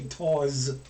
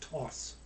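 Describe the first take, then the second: First: The syllable ends with a buzzing z sound. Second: The syllable ends with a hissing s sound. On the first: The speaker calls it wrong. "I want to say tawse, which is probably what we, we would tend to do in English" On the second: The speaker calls it right. "It's always going to be an S"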